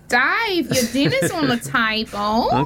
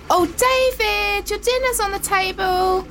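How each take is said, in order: First: It is said in an Australian-sounding voice. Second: It is said in the voice of Dave's mum.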